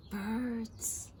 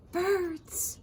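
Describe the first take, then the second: First: Soft, hushed "Birds."; mysterious. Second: Said in the usual way. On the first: Acted. Frog teasing the curious fish: mysterious hush. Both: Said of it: "said the frog mysteriously".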